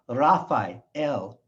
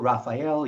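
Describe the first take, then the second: First: It is said with a Hebrew pronunciation. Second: It is said with an English pronunciation. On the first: The speaker calls it right. "In Hebrew, it's" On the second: The speaker calls it wrong. "their names in English are"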